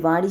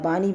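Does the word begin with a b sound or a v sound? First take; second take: v sound; b sound. First: The word begins with a v sound. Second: The word begins with a b sound. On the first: This is the standard form of the word. "वाणी शब्द का" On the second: This is a regional form of the word. "बानी बन जाता है"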